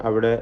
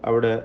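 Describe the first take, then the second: Both takes have the same delivery.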